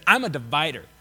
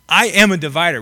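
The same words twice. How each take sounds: First: Said in the usual way. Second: "am" punched louder; stress on AM. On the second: Acted. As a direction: declare it firmly, leaning on "am". Restated with emphasis on am.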